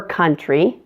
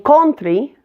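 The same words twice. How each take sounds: First: "country" with a short uh, kuntry; correct short U. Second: "country" with an o vowel, kontry; O-sound error. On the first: Teacher gives the right "country" with the short U sound. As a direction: say "country" with a relaxed uh. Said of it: "for country". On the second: Teacher imitates learners saying "country" with an O vowel. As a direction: say "country" as kɔntry, the wrong O sound. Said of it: "saying country for country". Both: Shown as a demonstration.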